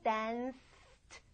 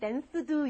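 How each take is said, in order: First: The ending is a voiceless 't' sound. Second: The ending is a voiced 'duh' sound. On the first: The speaker calls it right. "트 이렇게 바뀐다는 것만 생각하시면 돼요" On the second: The speaker calls it wrong. "굉장히 어색하게 들리죠?"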